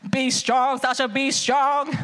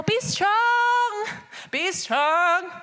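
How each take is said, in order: First: How he talks to me. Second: Lightly grand, solemn declaration; classical stately. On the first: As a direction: speak it close, just to her. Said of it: "he comes out like". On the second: Classical God speaking to his people, lightly solemn. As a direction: intone it like old-fashioned scripture. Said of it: "maybe y'all are more classical". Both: Retold or imitated.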